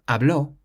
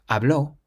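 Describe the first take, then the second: The two takes are said the same way.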